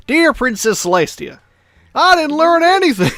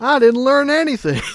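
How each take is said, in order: First: Very high, louder cartoon pony voice; squeaky mock pony letter; imitating a cartoon pony. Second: High, bright cartoon pony voice, much higher and a bit louder; high mock cartoon pony; imitating a cartoon pony. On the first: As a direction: chirp it like a pony writing to her princess. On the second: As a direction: squeak it like a cheerful cartoon pony admitting defeat. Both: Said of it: "Love the way she says it".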